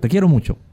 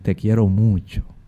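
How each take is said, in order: First: It is said in an impatient, dismissive way. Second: It is said in a warm, affectionate way.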